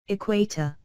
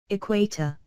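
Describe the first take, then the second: No difference in how they are said.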